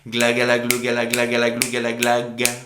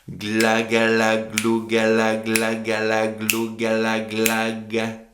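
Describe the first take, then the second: First: The phrase is said faster. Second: The phrase is said slowly. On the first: "on accélère" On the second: "au ralenti"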